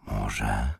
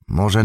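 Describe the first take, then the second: First: Very low and soft, tentative; hushed murmur. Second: Said in the usual way. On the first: A narrator's reading. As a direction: let it out under your breath, dropping low. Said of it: "szepnął". (cicho i nisko, półszeptem)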